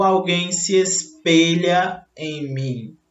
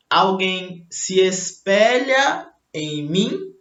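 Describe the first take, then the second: First: Espelha said slowly with closed ê; the correct "espelha", drawn-out closed e; closed E demo. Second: Espelha said slowly with open é; the incorrect "espelha", stretched open e; open E demo. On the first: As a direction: say "espelha" as es-pê-lha. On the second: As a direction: say "espelha" as es-pé-lha. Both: Shown as a demonstration. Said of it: "o E é fechado".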